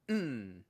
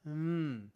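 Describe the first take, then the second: First: The sound is strong and forceful. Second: The sound is soft and weak. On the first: The speaker calls it right. "It needs to stronger" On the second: The speaker calls it wrong. "What you did there was this"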